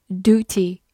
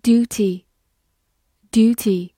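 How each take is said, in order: First: "duty" said the American way, as DOO-tee; American pronunciation. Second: Said in the usual way. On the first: Shown as a demonstration. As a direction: say "duty" with a plain oo, no y-glide. (用美式发音读"duty"，读作doo-tee) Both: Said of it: "美式发音也可以读作".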